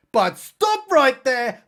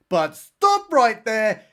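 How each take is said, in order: First: Slow, louder, higher trailer-voice halt; dramatic announcer. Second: Slow, slightly raised trailer-voice halt; dramatic announcer. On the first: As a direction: boom it like a movie trailer. Dramatic narrator interruption. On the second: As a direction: halt the story with mock drama. Dramatic narrator interruption repeated. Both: Pretend.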